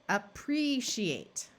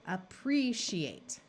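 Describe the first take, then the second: No difference in how they are said.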